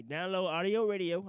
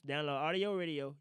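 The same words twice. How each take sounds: First: Audio stretched slowly and leaned on; slow sales pitch; ad plug, slow and stressed. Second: Said in the usual way. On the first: Shown as a demonstration. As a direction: Download Audio Radio, each word spaced out like an ad. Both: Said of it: "I know a lot of y'all listening to me".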